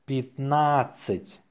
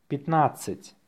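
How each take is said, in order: First: Slow, drawn-out dictation. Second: Natural-speed dictation; faster. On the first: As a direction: say it slowly for learners. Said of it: "say it slowly". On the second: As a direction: say it briskly, in one go. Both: Shown as a demonstration.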